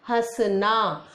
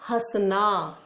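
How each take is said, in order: The two takes are said the same way.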